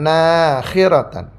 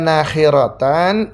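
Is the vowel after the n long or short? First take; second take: long; short. First: The vowel after the n is long. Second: The vowel after the n is short. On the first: "nunnya dipanjangkan" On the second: "nunnya pendek"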